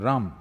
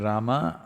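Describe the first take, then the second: First: The final vowel is dropped, North Indian style. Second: The final vowel is pronounced.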